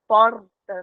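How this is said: The R is a tapped sound. This is how it is said in the speaker's own region. "que a gente chama de dobrado"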